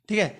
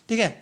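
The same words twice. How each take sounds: Both takes have the same delivery.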